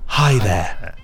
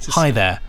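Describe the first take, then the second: First: The greeting is said slowly, after a breath. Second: The greeting is said quickly and casually. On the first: The speaker calls it right. "It has to be hi there" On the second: The speaker calls it wrong. "You can't just say hi there"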